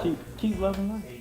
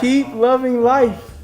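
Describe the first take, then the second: First: It is said quietly. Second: It is said loudly.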